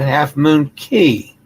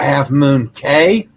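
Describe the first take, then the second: First: The last word sounds like 'key'. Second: The last word sounds like 'kay'.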